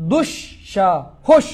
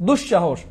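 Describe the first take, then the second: First: "দুঃসাহস" very slow, in three separated pieces: dush, sha, hosh; syllable-by-syllable demo. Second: Said in the usual way. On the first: Shown as a demonstration. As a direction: break "দুঃসাহস" apart with pauses between syllables. Teacher breaks word into syllables. ("দুঃসাহস" খুব ধীরে, ভেঙে ভেঙে: দুশ্, শা, হোশ)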